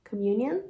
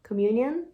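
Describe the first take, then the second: The two takes are said the same way.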